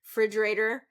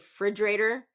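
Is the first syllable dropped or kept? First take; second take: dropped; dropped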